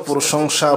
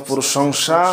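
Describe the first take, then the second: No difference in how they are said.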